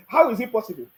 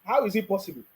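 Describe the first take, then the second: First: Laughing through the question. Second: Said in the usual way. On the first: Shown as a demonstration. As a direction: laugh it out in disbelief.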